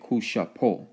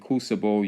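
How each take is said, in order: First: The last syllable begins with a P sound. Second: The last syllable begins with a B sound. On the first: The speaker calls it right. "you're actually saying kushapo" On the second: The speaker calls it wrong. "when you're talking kusabo"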